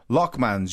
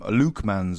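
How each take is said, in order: First: The first syllable sounds like 'lock'. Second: The first syllable sounds like 'Luke'. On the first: This is how people outside the area say it. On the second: This is how the family says it locally.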